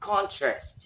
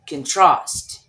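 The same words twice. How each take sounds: First: The stress is on the first syllable. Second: The stress is on the second syllable. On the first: It is used as a noun. "When it's noun" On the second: It is used as a verb. "And when it's verb"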